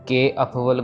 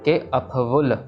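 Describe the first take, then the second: First: The vowel of 'ke' is drawn out long. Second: The vowel of 'ke' is said quickly and short. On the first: The speaker calls it wrong. "इसको के लंबा नहीं खींचना। सो के अफवल गुनाह है ऐसे नहीं कहना है।" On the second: The speaker calls it right. "जल्दी से बोल के निकल जाना है इसको।"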